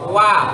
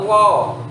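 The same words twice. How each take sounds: First: The vowel is an open 'a'. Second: The vowel leans toward 'o'. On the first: The speaker calls it right. "Harusnya terbuka wa" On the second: The speaker calls it wrong. "Itu namanya miring bacaannya"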